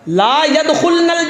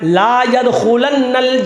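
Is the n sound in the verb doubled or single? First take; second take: single; doubled. First: The n in the verb is short and single. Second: The n in the verb is long and doubled. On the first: Such women will not enter paradise. "ला यदखुलनल जन्ना, अगर ये है" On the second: Such women will never under any circumstance enter paradise. "बाज़ मुहद्दिसीन ने इसको यूं पढ़ा है"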